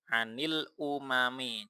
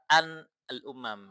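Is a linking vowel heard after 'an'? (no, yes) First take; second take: yes; no. First: 'An' takes an added i vowel before 'umami'. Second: 'An' runs into 'al' with no linking vowel. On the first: The speaker calls it right. "yang an ini dikasih kasroh" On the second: The speaker calls it wrong. "nggak mungkin sukun dua dibaca an al-umam, itu nggak nggak simpel"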